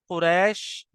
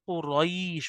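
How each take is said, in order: First: The 'ai' sound is said abruptly, not drawn out. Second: The 'ai' sound is drawn out softly and smoothly. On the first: The speaker calls it wrong. "ये बिल्कुल गलत है" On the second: The speaker calls it right. "होना चाहिए"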